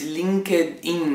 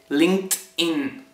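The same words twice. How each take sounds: First: It is said with a Spanish-style pronunciation. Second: It is said with an English pronunciation. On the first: The speaker calls it wrong. "es LinkedIn, dice la gente" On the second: The speaker calls it right. "esto en realidad se dice LinkedIn"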